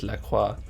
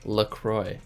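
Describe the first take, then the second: First: The name is said in a French way. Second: The name is said in an American-style way. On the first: This is the French word for holy cross. "the French word for like holy cross is La Croix" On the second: This is how the brand says its name. "It's pronounced LaCroix"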